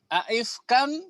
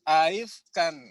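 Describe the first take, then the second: First: The second hamza is pronounced fully. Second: The second hamza is softened, not fully pronounced.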